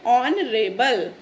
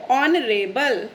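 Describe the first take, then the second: First: honourable drawn out very slowly, O sound first, no h; slow model word. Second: Said in the usual way. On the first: Shown as a demonstration. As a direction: repeat honourable slowly for the class. (Honourable धीरे-धीरे, ओ की sound से) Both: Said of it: "तो इसको हम कैसे pronounce करेंगे?".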